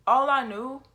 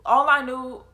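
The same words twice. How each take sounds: The two takes are said the same way.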